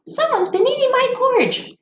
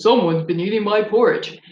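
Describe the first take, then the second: First: Very high squeaky little bear. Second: Papa Bear voice. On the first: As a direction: read it like the tiny bear in a storybook. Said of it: "we read to little kids". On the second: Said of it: "our Papa Bear voice". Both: Shown as a demonstration.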